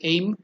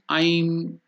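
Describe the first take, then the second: First: It is said like the English word aim. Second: It is said with a long vowel like I'm. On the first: The speaker calls it wrong. "You may wrongly pronounce it as aim" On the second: The speaker calls it right. "I elongated dirgha, so that it becomes I'm or Aing"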